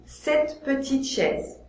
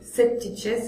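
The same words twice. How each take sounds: First: The E in petite is pronounced. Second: The E in petite is dropped. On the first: The speaker calls it right. "je dois dire cette petite chaise" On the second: The speaker calls it wrong. "c'est trop difficile"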